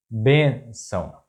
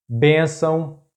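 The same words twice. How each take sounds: First: Bênção slowly split, bên - ção; syllable by syllable. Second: Bênção as one word, high stress on BÊN; stress on accented syllable. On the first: Teacher breaking down an example word, bênção slow in syllables. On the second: Teacher giving a two-accent example, bênção stressed on BÊN. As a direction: say bênção joined up, lifting the first syllable. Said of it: "the stressed syllable is that one". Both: Shown as a demonstration.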